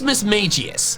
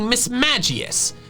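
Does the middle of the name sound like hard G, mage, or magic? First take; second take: mage; magic. First: The middle part sounds like the word 'mage'. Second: The middle part sounds like the word 'magic'. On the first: The name is taken to come from mage. "I say it the way I do because I assume the middle part of its name comes from mage" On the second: The name is taken to come from magic. "the middle part of its name is coming from magic"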